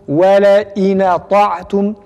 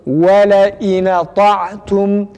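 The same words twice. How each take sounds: Both takes have the same delivery.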